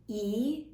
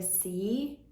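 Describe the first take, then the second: First: "E" as a bare ee vowel, no s before it; Andalusian dropped consonant. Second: Said in the usual way. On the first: Shown as a demonstration. Vlogger showing the local accent, "E" with its s dropped. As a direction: say just the vowel "E", leaving off the opening s. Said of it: "they say things like". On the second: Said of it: "instead of".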